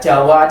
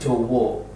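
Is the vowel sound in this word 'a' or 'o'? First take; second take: a; o. First: The vowels are pronounced as an open 'a'. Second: The vowels are pronounced as a rounded 'o'. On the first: This is the original form. "Padahal aslinya Jawa" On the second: This is the changed later form. "kemudian berubah menjadi Jowo"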